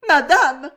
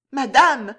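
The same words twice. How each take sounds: First: High, loud sobbing call. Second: High, loud, quavering call; a nervous maid's trembling plea. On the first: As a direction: sob out her plea. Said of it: "sanglota Juliette". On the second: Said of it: "d'une voix tremblante". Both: Acted.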